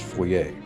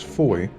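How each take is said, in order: First: The name is said the local way. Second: The name is said the common American way. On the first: The speaker calls it right. "I believe the correct pronunciation is Foyer" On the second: The speaker calls it wrong. "A lot of Americans, myself included, refer to it as Foy"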